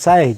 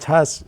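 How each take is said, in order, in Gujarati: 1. તે s થી શરૂ થાય છે અને y થી પૂરો થાય છે. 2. તે ch થી શરૂ થાય છે અને sh થી પૂરો થાય છે. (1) "ગામડિયા હોય ને તો સાય કહે" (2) "વ્યવસ્થિત પ્રોનાઉન્સિએશન"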